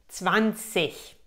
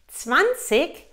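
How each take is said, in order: First: It is said with a standard German pronunciation. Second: It is said with a southern German pronunciation. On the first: "Das erste ist wirklich Hochdeutsch" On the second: "auch sehr gutes Deutsch"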